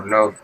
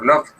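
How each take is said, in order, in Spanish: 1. La terminación es una D suave. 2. La terminación es una T fuerte. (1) "la D es un poquito más suave" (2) "usamos la pronunciación fuerte y se va a sonar como una T"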